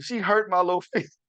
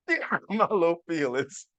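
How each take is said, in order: First: Half-laughing confession; laughing through it. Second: Mock wounded. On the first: Shown as a demonstration. Dad telling listeners his daughter hurt him, laughing. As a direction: let a laugh slip into feelings. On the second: Dad repeating to listeners that his daughter hurt him, mock-sulking. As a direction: play the wounded dad, tongue in cheek.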